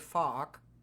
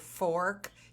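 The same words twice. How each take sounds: First: The word is said in a Boston accent. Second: The word is said in a plain accent. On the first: "he would say fork" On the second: "like for fork"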